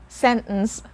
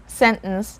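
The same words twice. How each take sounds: No difference in how they are said.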